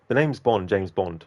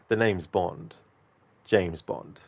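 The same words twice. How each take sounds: First: It is rushed with no pause between parts. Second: A short pause separates the two parts. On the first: The speaker calls it wrong. "very very fast" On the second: The speaker calls it right. "have a little bit of a pause between the two bits"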